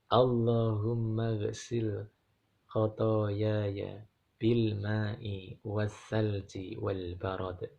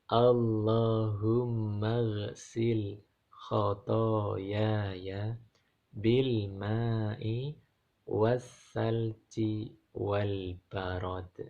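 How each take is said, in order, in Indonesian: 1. Dibaca dengan tempo normal, agak cepat. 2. Dibaca dengan pelan dan penuh penekanan. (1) "Kalau tadi kan Bapak hafalan" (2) "nah ini saya baca tapi pelan-pelan"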